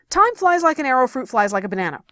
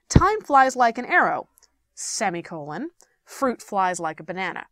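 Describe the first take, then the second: First: It is said fast and out of breath. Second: It is said at a calm, normal pace.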